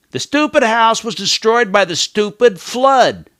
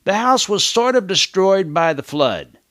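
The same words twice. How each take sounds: First: High, loud and annoyed; irritated. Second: Said in the usual way. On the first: Shown as a demonstration. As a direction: spit out each stupid in irritation. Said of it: "I'm getting irritated by these filler words". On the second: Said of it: "We just say".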